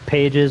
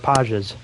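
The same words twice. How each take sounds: First: It sounds like the English word for book pages. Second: It sounds unlike the English word for book pages.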